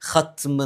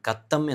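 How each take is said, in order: First: It starts with a raspy kh before tm. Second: It starts with a hard k and doubled t. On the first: The speaker calls it right. "ഖത്മ് എന്നാണ് പറഞ്ഞ് പറയേണ്ടത്" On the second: The speaker calls it wrong. "കത്തം എന്നല്ല"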